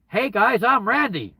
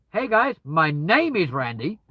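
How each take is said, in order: First: Loud, high, brash hello to strangers; loud brash intro. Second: Slower, measured polite introduction; slow careful intro. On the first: Greeting a group of strangers carelessly, loud and high. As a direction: blurt it out cheerily to a group. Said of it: "don't just walk up to them and go". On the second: Meeting new people politely, slow and measured. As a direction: introduce yourself carefully and clearly. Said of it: "Whereas if you go". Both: Shown as a demonstration.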